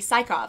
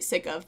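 First: The word does not sound like 'sick of'. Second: The word sounds like the phrase 'sick of'. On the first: "I think it's how you pronounce it" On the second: "because I'm sick of it already"

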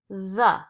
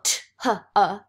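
First: It starts with a th sound. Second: It starts with a plain t sound. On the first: The speaker calls it right. "you go the" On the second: The speaker calls it wrong. "you don't go t huh"

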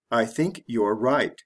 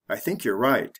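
First: Each word is said separately and 'you're' is said in full. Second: The words run together and 'you're' is reduced. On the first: "The slow way" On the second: "The fast way"

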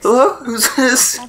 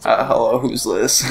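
First: The voice is lighter, without creak. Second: The voice is deep with vocal fry. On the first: The speaker calls it wrong. "Why do I sound like this?" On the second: The speaker calls it right. "emulate me with my deep, masculine voice and my vocal fry"

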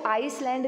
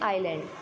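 First: It is said with an s sound: eyes-land. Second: It is said with no s sound: eye-land. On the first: The speaker calls it wrong. "इसको आइसलैंड नहीं बोलेंगे बेटा" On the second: The speaker calls it right. "इसकी pronunciation क्या होगी, आइलैंड"

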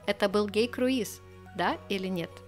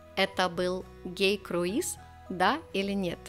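First: It is said at a faster pace. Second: It is said at a slower pace.

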